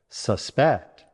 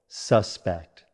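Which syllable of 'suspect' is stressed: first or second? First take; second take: second; first. First: The stress is on the second syllable. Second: The stress is on the first syllable. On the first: To believe something might be true. "Stress on the second syllable" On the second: A person believed to have committed a crime. "Stress on the first syllable"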